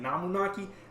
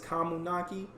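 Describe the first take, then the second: First: The name begins with an N sound. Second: The name begins with a K sound. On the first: The speaker calls it wrong. "I've been saying it wrong" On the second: The speaker calls it right. "Her last name is Kamunaki"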